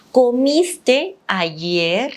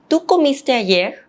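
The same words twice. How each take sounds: First: ¿Comiste ayer? said slowly, rising at ayer; slow questioning lift on ayer; drawn out, ending on a rise; rising question tune. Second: ¿Tú comiste ayer? with the voice lifting at ayer; rising question tune. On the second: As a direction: ask ¿Tú comiste ayer? with a clear rise. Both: Shown as a demonstration. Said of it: "we use the intonation at the end".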